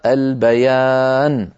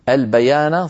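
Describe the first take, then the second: First: The final n ends with no vowel. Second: The final n carries a short a vowel. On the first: The reader stops at this word. "إن وقفنا فتحة النون تزول ويصير بدلا منها سكون" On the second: The reading continues without stopping. "فتحة النون"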